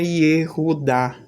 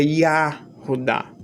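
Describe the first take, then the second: First: "Yehudá" opening on a clear "ye"; first vowel of "Yehudá" as e, not a. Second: "Yahudá" opening on an open "ya"; first vowel of "Yahudá" as a, not e. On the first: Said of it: "gostam de dizer que não é". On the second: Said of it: "Gostam de dizer que é". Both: Shown as a demonstration.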